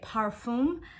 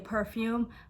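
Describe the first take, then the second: First: The word is said with French pronunciation. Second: The word is said with English pronunciation. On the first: The speaker calls it right. "it is actually a parfum" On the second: The speaker calls it wrong. "In American and in English, we say perfume"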